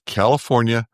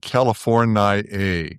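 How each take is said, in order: First: The word is said with four syllables. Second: The word is said with five syllables. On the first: The speaker calls it right. "It has only four" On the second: The speaker calls it wrong. "if you call it California, you get your fifth syllable"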